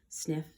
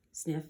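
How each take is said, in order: Both takes have the same delivery.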